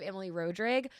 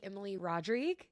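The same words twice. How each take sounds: First: Rodrigue as "ROH-drig", long O, short i; old Cajun pronunciation. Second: Rodrigue as "rod-REEG", long final ee; rebranded pronunciation. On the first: The name she is leaving behind, Rodrigue said "ROH-drig". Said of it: "instead of Emily Rodrigue". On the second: Rebranding herself for Austin, Rodrigue said "rod-REEG". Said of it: "I'm rebranding myself to be". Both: Shown as a demonstration.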